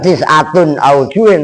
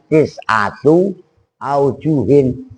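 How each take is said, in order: First: The first word ends with an added n sound. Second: The first word ends with a plain vowel. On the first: The speaker calls it wrong. "Bukan tis'atun aujuhin" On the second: The speaker calls it right. "Kalau mudhof itu tanwinnya dibuang"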